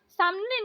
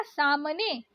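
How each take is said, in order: First: सामने run together as "samne"; no gap between m and n in सामने; wrong pronunciation. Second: सामने opened out as "saa-ma-ne"; correct pronunciation. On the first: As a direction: say सामने quickly as "sam-ne". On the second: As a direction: give सामने its middle syllable. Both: Shown as a demonstration. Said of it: "सामने नहीं होता".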